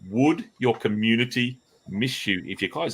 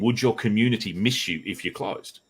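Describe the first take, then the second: First: The question is said slowly and deliberately. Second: The question is said at normal speed.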